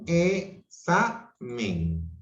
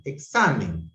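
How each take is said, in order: First: Examen drawn out very slowly as e-xa-men; very slow syllables. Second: Said in the usual way. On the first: Shown as a demonstration. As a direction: stretch Examen into e-xa-men, X joined to the second vowel. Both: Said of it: "la X entre vocales se une a la segunda vocal".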